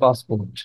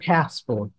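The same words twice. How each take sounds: First: The word is said in a Bangladeshi accent. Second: The word is said in an American accent. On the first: "আমরা বলি কি" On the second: "American বলে কি"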